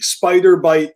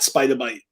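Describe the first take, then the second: First: The R at the end of 'spider' is pronounced. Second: The R at the end of 'spider' is dropped. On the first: "enunciate it fully" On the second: "not spider bite"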